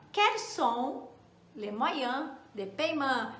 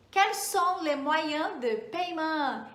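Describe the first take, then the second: First: Chunked repeat. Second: "Quels sont les moyens de paiement?" said slowly, each word clear; slow model to repeat. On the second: Teacher leads students to repeat the French question slowly. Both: Shown as a demonstration. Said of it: "Repete aí comigo".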